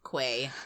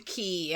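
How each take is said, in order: First: The word sounds like 'kway'. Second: The word sounds like 'key'. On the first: "I have to say quay" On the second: "I cannot with the key"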